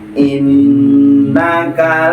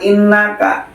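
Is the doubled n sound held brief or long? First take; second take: long; brief. First: The doubled n is held long and nasal. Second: The doubled n is short, without nasal hold. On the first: The speaker calls it right. "tahan sejak panjang dua harokat" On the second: The speaker calls it wrong. "bukan innaka"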